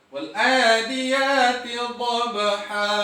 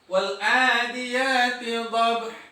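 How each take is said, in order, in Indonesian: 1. Kata terakhir berakhir dengan vokal panjang yang terbuka. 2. Kata terakhir berakhir mendadak dengan bunyi h. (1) "Kalimat dhabhan menjadi bacaan dhabha" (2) "huruf H-nya terkadang dimatikan"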